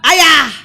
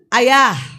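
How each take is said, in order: First: It is called at a very high pitch. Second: It is called at a raised pitch.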